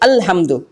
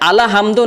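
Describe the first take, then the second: First: The L closes the syllable with no vowel. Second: A long vowel follows the L sound. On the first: The speaker calls it right. "बल्कि अल हमदो" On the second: The speaker calls it wrong. "नहीं बोलेंगे"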